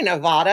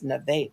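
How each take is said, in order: First: "Nevada" with an open ah; speaker's own pronunciation. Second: "Nevada" with a middle ay; the man's pronunciation. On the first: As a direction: say "Nevada" as nuh-VAH-duh. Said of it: "I say Nevada". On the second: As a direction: say "Nevada" as nuh-VAY-duh. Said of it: "told me it's Nevada". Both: Shown as a demonstration.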